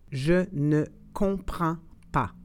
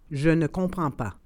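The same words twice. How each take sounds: First: It is said slowly and carefully. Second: It is said at normal conversational speed. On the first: "then slowly said in French" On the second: "and then in communicational Canadian French"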